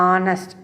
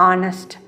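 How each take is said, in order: No difference in how they are said.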